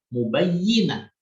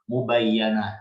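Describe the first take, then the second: First: The vowel after the double 'y' is 'i'. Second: The vowel after the double 'y' is 'a'. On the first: This is how most readers recite it. "dengan kasrahnya ya" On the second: This is how a minority of readers recite it. "dengan fathahnya ya"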